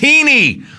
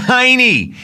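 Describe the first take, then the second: First: The first vowel sounds like 'ee', as 'heeny'. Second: The first vowel sounds like 'eye', as 'hiney'. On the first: The speaker calls it right. "It's Heaney" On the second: The speaker calls it wrong. "It's not Heaney"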